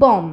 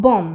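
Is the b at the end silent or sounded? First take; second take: silent; silent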